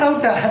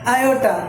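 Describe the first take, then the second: First: The word is pronounced as aauta. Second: The word is pronounced as aayota. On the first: The speaker calls it wrong. "नोट आउटा" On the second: The speaker calls it right. "एक word है जिसका नाम है आयोटा"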